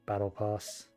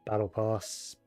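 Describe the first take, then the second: No difference in how they are said.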